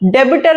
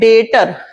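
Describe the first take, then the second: First: The b is sounded, adding an extra syllable. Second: The b is silent, giving two syllables. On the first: The speaker calls it wrong. "जो नए students होते हैं वो बोलते हैं डेबिटर। डेबिटर नहीं होता है" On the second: The speaker calls it right. "बी silent होता है"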